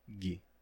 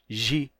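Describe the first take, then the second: First: The syllable begins with a hard g sound. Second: The syllable begins with a soft zh sound. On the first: This is how it was said in classical Latin. "lá na época do latim clássico, era gi" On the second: This is how it is said in Portuguese today. "hoje isso representa gi"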